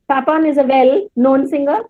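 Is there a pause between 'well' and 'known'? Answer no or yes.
yes. There is a pause after the word well. The speaker calls it wrong. "do I say that? ... No, no"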